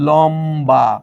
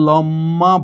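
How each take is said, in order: First: The middle sound is m followed by b. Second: The middle sound is a long doubled m. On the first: The speaker calls it right. "তুমি বলছো কিন্তু লম্বা।" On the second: The speaker calls it wrong. "কিন্তু তুমি কি এটাকে লম্মা বলো?"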